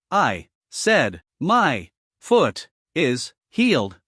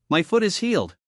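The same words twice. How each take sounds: First: Slow "my foot is healed", every word punched; each word emphasized. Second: Said in the usual way. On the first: A narrator's reading. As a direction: hit "my", "foot", "is", "healed" one by one. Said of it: "emphasized each word loudly, almost shouting". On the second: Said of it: "then repeated".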